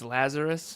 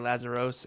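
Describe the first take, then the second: First: The last syllable sounds like 'us'. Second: The last syllable sounds like 'os'. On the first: This is the family's own pronunciation. "It's Lazarus, but it's spelt with an O S" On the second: This is how most people say it from the spelling. "So most people say Lazaros"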